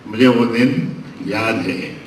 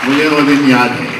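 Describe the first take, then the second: First: Slow wistful echo. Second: मुझे वो दिन याद है said out louder, falling on वो; declaimed memory. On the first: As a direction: sink into the memory. (धीमे, याद में खोए हुए) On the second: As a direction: proclaim it to the hall. (ज़ोर से याद करते हुए) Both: Real, not acted. Orator repeats memory line.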